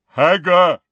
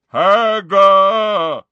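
First: Higher, louder giant's demand; insistent giant. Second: Huge, high, drawn-out roar; giant's bellow. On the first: Giant searching for someone he lost, insistent loud call. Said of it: "more insistently". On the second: Giant demanding someone he misses, full bellow. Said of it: "then bellowed". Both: A narrator's reading.

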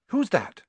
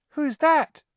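First: Higher, alarmed question in the dark; startled question. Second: Much higher, louder, rising panic; panicky repeat. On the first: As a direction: ask nervously who's there. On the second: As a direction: repeat it in a frightened squeak. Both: A narrator's reading.

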